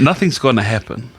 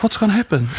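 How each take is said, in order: First: Said in the usual way. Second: High-pitched imitation of a questioner; retold challenging question. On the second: Imitating brother questioning him about the risk, high-pitched challenge. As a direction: pitch it well up, lightly mocking the question.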